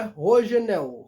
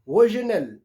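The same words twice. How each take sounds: First: "Rogenel" with h-like R and final L as a w sound; "Rogenel" as "ho-zhe-NEW"; Portuguese pronunciation. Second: "Rogenel" with a French R and a clear final L; "Rogenel" as French "ro-zhe-NEL"; French pronunciation. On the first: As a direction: say "Rogenel" the Brazilian way, starting "ho", ending "-ew". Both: Shown as a demonstration. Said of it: "Em francês é Rogenel".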